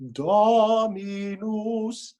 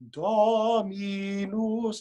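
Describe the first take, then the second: Both takes have the same delivery.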